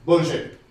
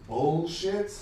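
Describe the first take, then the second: First: Bullshit punched louder in a non-American accent. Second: Bullshit in a plain American accent. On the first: Comic showing how the word should sound, non-American accent. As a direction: drop the American accent and hit it hard. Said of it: "that doesn't sound right". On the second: Comic testing a word that sounds wrong, American accent. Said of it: "said in this American accent". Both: Shown as a demonstration.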